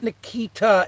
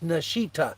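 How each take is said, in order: First: The middle consonant is a k sound. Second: The middle consonant is an sh sound. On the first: The speaker calls it wrong. "So it's not Nikita" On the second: The speaker calls it right. "like with an S H"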